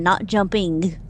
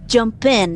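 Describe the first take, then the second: First: "jumping" run together as one word. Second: "Jump in" as two words, clear "in". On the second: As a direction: say "Jump in", not "jumping". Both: Shown as a demonstration.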